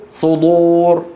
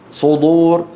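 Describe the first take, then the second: The two takes are said the same way.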